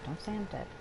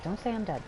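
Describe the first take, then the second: First: Much softer, almost under breath; quiet murmur. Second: Said in the usual way. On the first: Acted. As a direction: murmur it to yourself. Repeats the line, second softer.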